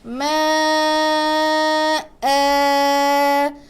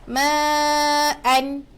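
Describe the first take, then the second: First: The word ends with a lengthened vowel. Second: The word ends with an n sound.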